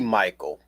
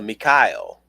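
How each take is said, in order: First: The name is said the ordinary English way. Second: The name is said the biblical way, Mi-kha-el.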